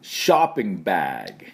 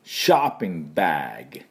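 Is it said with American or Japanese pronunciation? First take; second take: American; American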